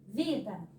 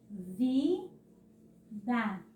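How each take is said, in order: First: Said in the usual way. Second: Vida drawn out as rising VI, pause, DA; syllables separated. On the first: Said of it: "Vamos ver". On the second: Shown as a demonstration. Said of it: "Na hora de separar as sílabas". (Vida separado: vi, pausa, da)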